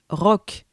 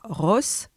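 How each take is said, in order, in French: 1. Le mot se termine par un son K. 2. Le mot se termine par un son S. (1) "mais rock" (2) "ce mot ne se prononce pas Ross"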